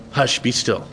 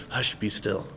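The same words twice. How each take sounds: First: Put-on soothing a child. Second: Very soft, much lower, barely above a breath; calm the sea without raising your voice at all; quiet hush. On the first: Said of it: "talking to a child". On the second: Acted. Jesus quietly stilling the storm, soft and low. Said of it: "not in a loud, boisterous voice".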